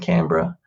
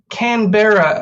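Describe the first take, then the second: First: It is said in an Australian pronunciation. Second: It is said in an American pronunciation. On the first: "but we just say Canberra" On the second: "as Americans might pronounce it"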